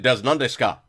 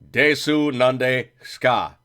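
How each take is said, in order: First: The final vowel of the first word is dropped. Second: Every syllable of the first word is pronounced fully. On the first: It sounds like natural native speech. The speaker calls it right. "You actually drop some letters" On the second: It sounds like someone who learned it in a classroom. The speaker calls it wrong. "That's not correct"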